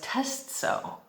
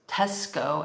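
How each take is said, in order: First: The c is said as a ts sound. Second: The c is said as a k sound. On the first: The speaker calls it wrong. "we don't pronounce Tesco as Testso" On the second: The speaker calls it right. "with a hard C"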